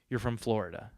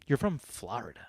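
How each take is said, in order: First: It is said in a plain, unaccented way. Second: It is said in a put-on regional accent. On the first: The speaker calls it right. "I say Florida" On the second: The speaker calls it wrong. "Why am I saying it like I'm fucking"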